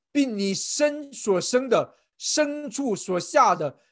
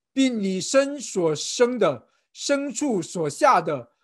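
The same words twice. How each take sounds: Both takes have the same delivery.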